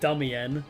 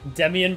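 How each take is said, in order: First: The first vowel sounds like 'duh'. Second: The first vowel sounds like 'deh'. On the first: The speaker calls it wrong. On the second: The speaker calls it right.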